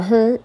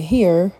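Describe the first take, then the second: First: "her" for "here", Saint Louis style; country twang on "her". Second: Said in the usual way. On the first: Shown as a demonstration. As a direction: say "her" in place of "here", r-colored vowel. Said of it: "I keep saying ... or "her" instead of "here". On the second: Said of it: "instead of "here".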